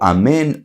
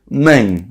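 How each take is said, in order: First: The word is said fully, start to end. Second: The opening vowel is dropped from the word. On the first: The speaker calls it right. "Decimos o amén" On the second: The speaker calls it wrong. "si no se escucha la alef, él dice una especie de main"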